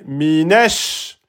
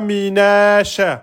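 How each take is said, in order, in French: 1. Le son sh est tenu et doublé. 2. Le son sh est court et simple. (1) "shin, shedda" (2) "C'est pas minash"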